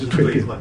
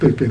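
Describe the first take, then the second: First: The word begins with an aspirated t sound. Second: The word begins with an unaspirated d sound. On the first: The speaker calls it right. "到底对变还是蜕变" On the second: The speaker calls it wrong. "我每次都念对变"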